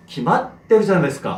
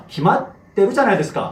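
No difference in how they are said.

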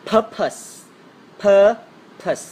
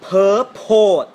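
First: Purpose as "PUR-pus", first beat higher and louder; first-syllable stress. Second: Purpose as "pur-POHT", both beats loud and drawn out; heavy, slow mispronounced purpose, "per-pote"; wrong pronunciation. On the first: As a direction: punch PUR, let the second syllable fall. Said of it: "มัน stress ที่พยางค์แรก". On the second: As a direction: drag out purpose with a full OH in the second syllable. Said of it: "ไม่ใช่". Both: Shown as a demonstration.

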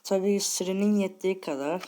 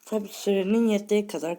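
First: Chewing while talking; words round a mouthful of food; mouth full. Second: Talking with mouth full. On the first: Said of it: "Bir şey çiğniyorum da". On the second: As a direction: mouth full of food, chewing. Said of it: "ağzımda yemek var". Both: Real, not acted.

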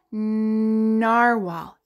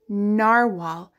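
First: "Narwhal" with a long nnn at the start; stretched first sound. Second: Said in the usual way. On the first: Shown as a demonstration. Teacher showing what N says, "Narwhal" begun on a long nnn. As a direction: linger on the N of "Narwhal".

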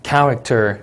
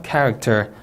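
First: "character" with the stress on the first syllable "CHAR", falling; "character" said clearly, weight on "char". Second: "Character" said again with the stress on "CHAR", falling; stress first syllable. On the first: Teacher modelling word stress for the test. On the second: Teacher repeating the word as a stress model. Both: Shown as a demonstration. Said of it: "강세 주의에서 단어 읽어볼까요".

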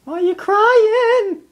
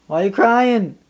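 First: Sung, much higher and slow, drawn out; high slow pet-talk croon. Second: Said in the usual way. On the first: Real, not acted. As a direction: croon it to a whining dog. High slow repeat to the dog.

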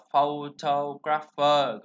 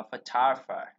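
First: Slow, wrong "photographer" with stress on PHO and a full O; wrong pronunciation. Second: "photographer" stressed on the second syllable, fuh-TAH-gruh-fer; correct pronunciation. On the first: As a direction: drag out the mistaken "photographer" as FOH-toh-graf-er. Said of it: "nó không phải là photographer". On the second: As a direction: reduce the O's of "photographer" to uh, punch TAH. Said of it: "Từ này chúng ta sẽ đọc là photographer". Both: Shown as a demonstration.

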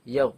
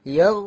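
First: Said in the usual way. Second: ইয়াও called out loud with a lifted end; loud Quranic recitation of ইয়াও; recited syllable. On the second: Shown as a demonstration. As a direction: recite ইয়াও clearly and loudly. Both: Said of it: "simply ইয়াও".

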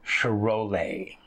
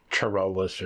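First: Charolais said slowly as shuh-roh-LAY, silent s; "Charolais" as shuh-roh-LAY, slow with falling tune; corrected pronunciation. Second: Charolais misread as chuh-ROH-lus, with a sounded s; "Charolais" as chuh-ROH-lus, hard ch and final s; wrong pronunciation. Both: Shown as a demonstration. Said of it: "I was pronouncing completely wrong".

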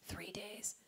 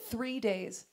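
First: Hushed, barely voiced whisper; whispered repeat. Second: Said in the usual way. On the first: Real, not acted. Comic repeats how long the car lasted, whispering. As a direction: whisper it for emphasis.

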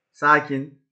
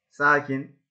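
No difference in how they are said.

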